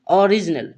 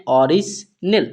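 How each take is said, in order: First: Said in the usual way. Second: ओरिजिनल drawn out, split as ओरिज-नल; teacher's divided, deliberate ओरिजिनल; word broken into parts. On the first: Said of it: "क्या पढ़ेंगे". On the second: Shown as a demonstration. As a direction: sound out ओरिजिनल in two clear pieces. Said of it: "इस word को क्या पढ़ते हैं".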